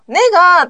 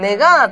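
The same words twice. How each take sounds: First: It starts high and sounds strong. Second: It starts low and rises. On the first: It sounds forceful. The speaker calls it wrong. "ねがーって言うもん、うん、日本人。" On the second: It sounds natural. The speaker calls it right. "ねがーって言うんだけど、うん、韓国人は。"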